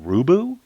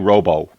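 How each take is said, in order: First: The name rhymes with Hulu. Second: The name does not rhyme with Hulu. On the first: "my name is pronounced like Hulu or Fubu" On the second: "I would say Robo"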